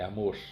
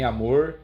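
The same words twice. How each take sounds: First: The final r ends in a breathy puff. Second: The final r has no breathy puff. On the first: The speaker calls it right. "É amor. Né? Dá aquela sopradinha" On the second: The speaker calls it wrong. "Não é nem amor"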